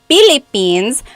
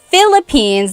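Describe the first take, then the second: First: It is said in a Filipino English accent. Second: It is said in a standard English accent. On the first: "they say" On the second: "instead of"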